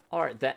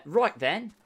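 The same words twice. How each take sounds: First: Cockney try. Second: "Right then" pitched up in Cockney; chirpy Cockney "Right then"; mock Cockney voice; Cockney accent. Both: Shown as a demonstration. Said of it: "English accent ... more Cockney".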